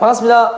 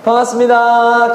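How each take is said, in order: First: The greeting is said short and clipped. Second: The greeting is said long and drawn out.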